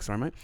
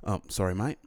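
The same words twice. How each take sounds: First: Put-on softer apology in an English accent; corrected take at an English accent. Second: Softer, lower apology sliding into Australian; botched English accent that turns Australian; Australian-sounding slip. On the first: Bumping into a stranger, apologizing in a put-on English accent. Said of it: "but I was like". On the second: Acted. Bumping into a stranger, apologizing in an Australian-sounding accent. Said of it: "That sounded kind of Australian".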